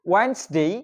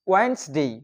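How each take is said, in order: No difference in how they are said.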